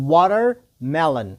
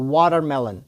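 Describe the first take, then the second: First: Watermelon broken into "water", pause, "melon"; slow, split word. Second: Said in the usual way. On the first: Shown as a demonstration. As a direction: say watermelon slowly in two separate parts. Teacher splits word for repetition. (watermelon ورو، په دوو برخو کې)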